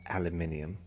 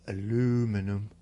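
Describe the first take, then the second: First: The word is said with five syllables. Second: The word is said with four syllables. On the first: "Aluminium's the correct way to say that" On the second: "or aluminum"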